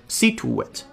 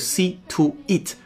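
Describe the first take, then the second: First: A w glide smoothly links 'to' into 'it'. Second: The words are said without a linking w sound. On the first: The speaker calls it right. "在中间加一个半元音w 作为过渡 ... 很圆润的就过去了" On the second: The speaker calls it wrong. "就不是see to it"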